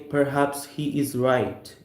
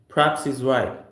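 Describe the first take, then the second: First: He is is said as two full words. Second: He is is contracted into one syllable. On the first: The speaker calls it wrong. "we don't say perhaps he is right in America" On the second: The speaker calls it right. "We say as perhaps he's right"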